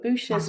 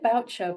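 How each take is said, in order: First: The surname is said with French-style sounds. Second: The surname is said with plain English sounds. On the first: "much posher" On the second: "I always say"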